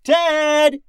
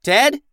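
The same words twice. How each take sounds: First: Very high, drawn-out holler; long, exasperated yell; yelled name. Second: High, loud questioning call; loud searching shout. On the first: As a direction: holler for a missing crewmate. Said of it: "she yelled". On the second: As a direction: call for someone missing. Captain calls for missing crewman. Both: A narrator's reading.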